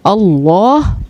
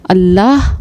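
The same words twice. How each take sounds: First: The L is heavy and full-mouthed. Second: The L is light and thin. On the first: "अल्लाह पुर" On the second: "अल्लाह बारीक"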